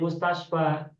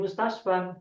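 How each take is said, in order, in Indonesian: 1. Kata ini berakhir dengan vokal. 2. Kata ini berakhir dengan bunyi n. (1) "seringkali kita bacanya menjadi mustasfa" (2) "kemudian menjadi mustasfan"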